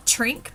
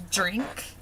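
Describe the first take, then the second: First: "trink" with an outright t; plain T. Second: "drink" with a dental d. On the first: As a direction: say drink wrongly as "trink", with a full T. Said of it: "not like you're saying trink". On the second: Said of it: "but it's a drink". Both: Shown as a demonstration.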